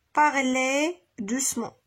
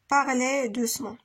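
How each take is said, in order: First: Slow, spaced dictation of the words. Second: Said in the usual way. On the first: Shown as a demonstration. Teacher dictates to pupils, slow and spaced. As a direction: say each word slowly for copying. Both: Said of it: "E Z à la fin".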